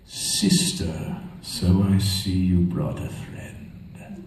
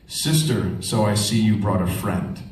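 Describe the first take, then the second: First: It imitates Vader, then Palpatine. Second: It is said in a plain voice.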